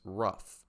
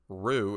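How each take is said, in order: First: The word ends in an 'uff' sound. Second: The word ends in an 'oo' vowel. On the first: The speaker calls it right. "it's rough" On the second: The speaker calls it wrong. "it's not rue"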